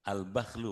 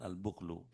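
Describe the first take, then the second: First: The first vowel is an open a sound. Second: The first vowel is a rounded u sound. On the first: "Bifathil ba wal kha" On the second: "dengan domah dengan sukun"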